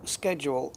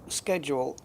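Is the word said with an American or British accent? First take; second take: American; American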